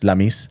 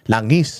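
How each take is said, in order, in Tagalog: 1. Tunog m ang gitnang katinig. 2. Tunog ng ang gitnang katinig.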